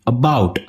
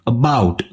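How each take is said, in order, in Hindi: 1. पहला स्वर कमज़ोर है और उस पर ज़ोर नहीं है। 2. पहला स्वर कमज़ोर है और उस पर ज़ोर नहीं है।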